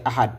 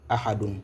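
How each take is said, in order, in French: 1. Le mot s'arrête net sur une consonne nue. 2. Le mot se termine par une syllabe pleine en -un. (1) "on s'arrête avec l'accent soukoun" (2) "La lecture de chaque mot"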